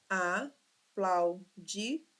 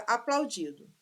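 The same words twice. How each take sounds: First: Aplaudido sílaba por sílaba. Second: Said in the usual way. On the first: Shown as a demonstration. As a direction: split aplaudido into slow, separate syllables. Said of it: "quatro sílabas". (aplaudido silabado, bem devagar) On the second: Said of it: "Cinco sílabas?".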